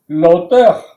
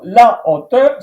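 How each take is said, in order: First: The article is elided into the noun. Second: The article is pronounced fully before the noun. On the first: It sounds like the word for author. The speaker calls it wrong. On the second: It means height. The speaker calls it right.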